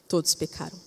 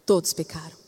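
First: "Todos pecaram" repeated softer, dropping to a hush; softer solemn echo of "Todos pecaram". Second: Said in the usual way. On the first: Shown as a demonstration. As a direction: let the repeat of "Todos pecaram" fall quiet.

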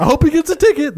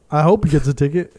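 First: High, sneering imitation; mock him in a high voice. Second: Said in the usual way. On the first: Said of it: "It's like". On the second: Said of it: "He's like".

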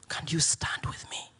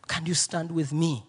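First: Whispered and much softer, pleading; whispered plea. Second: Said in the usual way. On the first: Retold or imitated. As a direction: repeat the plea as a hushed whisper.

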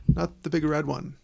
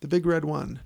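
First: "Big" hit hard in "the Big Red One"; American-style stress, "Big" punched. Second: "The Big Red One" with "One" leaned on; English-style stress, "One" leaned on. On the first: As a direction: punch "Big" over the rest. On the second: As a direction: push the last word "One". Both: Shown as a demonstration.

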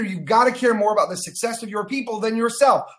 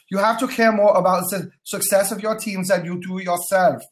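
First: Said in the usual way. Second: Hammy mock German accent; fake German accent. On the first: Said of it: "Let me say this again". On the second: Coach repeating the leadership rule to viewers, fake German accent. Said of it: "In my best fake German accent".

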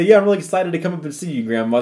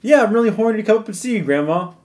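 First: Quick, higher phone-call greeting; excited grandchild on the phone. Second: High, quick phone-call chirp; eager grandchild on the phone. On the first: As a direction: tell Grandma eagerly, at a quick pace. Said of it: "You would say". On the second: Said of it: "you wouldn't say". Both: Acted.

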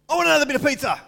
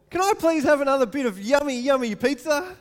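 First: Put-on high, loud, rude kid's demand; pushy greedy kid voice; demanding child. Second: High, loud, sugary asking voice; sweetly pleading child; polite sweet child. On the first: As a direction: bark it like a spoiled child grabbing for more. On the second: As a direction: ask nicely like a grateful kid. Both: Shown as a demonstration. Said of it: "Do, do you get the difference?".

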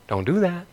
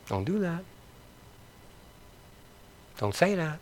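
First: Quiet, firm don't; soft rebuke. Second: Barely audible, softer still; near-whispered rebuke. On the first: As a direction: hush it down, gently scolding. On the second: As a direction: let it fade almost to a whisper. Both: Real, not acted. Repeated rebuke, dropping off.

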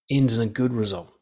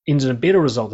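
First: Said in the usual way. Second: "better" punched louder; quicker restatement with "better" stressed. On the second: Real, not acted. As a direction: correct it, leaning hard on "better". Corrects good to better.

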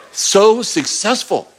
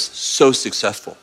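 First: Slow, drawn-out praise at normal pitch; slow affirming God voice. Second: Lower, softer, slow reassurance; gentle God voice. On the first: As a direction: stretch it out to affirm them. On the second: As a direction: soothe them, slow and low. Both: Pretend. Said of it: "God goes".

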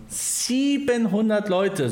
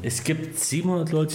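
First: High, slow, amazed "Siebenhundert"; amazed emphasis. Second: Said in the usual way. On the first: Real, not acted. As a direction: stretch "Siebenhundert" out in disbelief. Repeats the number in amazement.

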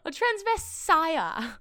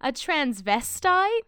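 First: "transvestire" slow and high, ending in -ire; misread word. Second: "transvestite" slowly, with a clear -ite ending; corrected word. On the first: Agent repeats the script's typo, drawn-out "transvestire". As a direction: stretch "transvestire" with -ire instead of -ite. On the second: Agent corrects the misreading, slow questioning "transvestite". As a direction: say "transvestite" drawn out, rising on -ite. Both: Acted. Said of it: "it's supposed to say transvestite".

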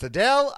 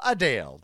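First: Adele said as uh-DELL, rising; questioning Adele with a short E; short-E pronunciation. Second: Adele said as uh-DALE, falling; long-A pronunciation. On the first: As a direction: ask Adele ending like bell. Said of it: "formerly known as [name]". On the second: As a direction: answer Adele rhyming with pale. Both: Shown as a demonstration.

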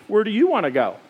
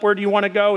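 First: "you" stressed, falling at the end. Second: Said in the usual way. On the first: Retold or imitated. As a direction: lean on "you" in "Where do you wanna go?". Wife turns the question back.

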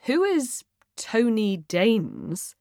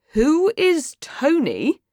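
First: Slow, puzzled question; confused. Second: Insistent, high, drawn-out question; louder. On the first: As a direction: read out an unknown name slowly, baffled. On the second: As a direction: repeat it slowly with raised pitch, demanding. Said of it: "asks again, louder". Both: Acted.

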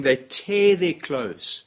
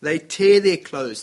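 First: Slowed, heavy words, tear hit hard; grave slow telling; slow dramatic emphasis. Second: Louder, slow, "tear" stressed; forceful dramatic repeat; louder repeated emphasis. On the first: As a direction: lay out "tear" slowly and deliberately. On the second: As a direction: make the line louder than its first take. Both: Acted. Dramatic retelling of Joshua.

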